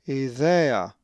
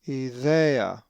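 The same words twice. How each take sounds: First: The stress is on the middle syllable. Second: The stress is on the middle syllable.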